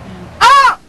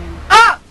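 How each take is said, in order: First: The shout is said with more power. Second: The shout is said with little power.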